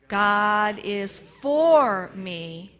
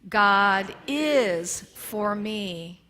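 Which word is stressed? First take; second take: for; is. First: The word for is stressed. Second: The word is is stressed.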